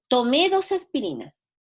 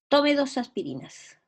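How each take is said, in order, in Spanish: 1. El verbo se acentúa en la última sílaba. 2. El verbo se acentúa en la primera sílaba. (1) "Cuando yo le pongo acento, digo" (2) "Estoy recomendándole a alguien que tome dos aspirinas"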